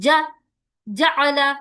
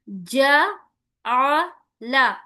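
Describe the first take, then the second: First: The first vowel is cut very short, jerky. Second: The first vowel has a normal, short length. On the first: The speaker calls it wrong. "इतना जल्दी भी नहीं करना कि झटका महसूस हो" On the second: The speaker calls it right. "मारूफ आवाज के साथ हमें पढ़ना है"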